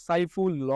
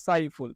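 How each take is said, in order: First: সাইফুল ল with the hidden অ sounded after ল; wrong pronunciation. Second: সাইফুল said closed, no অ after the final ল; correct pronunciation. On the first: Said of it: "আমরা তো উচ্চারণের সময় বলি না". (সাইফুল ল, ল-এর অ উচ্চারণ করে) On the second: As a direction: end সাইফুল cleanly on the ল. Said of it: "আমরা কি বলি?". (সাইফুল, শেষে অ ছাড়া) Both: Shown as a demonstration.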